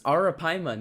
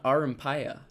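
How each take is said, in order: First: The word is said as a-ra-PAI-ma. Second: The word is said as a-ram-PAI-ya. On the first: The speaker calls it right. "It's Arapaima" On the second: The speaker calls it wrong. "not Arampaya"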